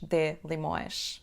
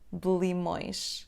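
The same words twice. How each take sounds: First: The vowel in the first word is fully sounded. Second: The vowel in the first word is dropped. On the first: The speaker calls it wrong. "ou ainda menos de limões" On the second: The speaker calls it right. "a letra E na palavra de vai cair"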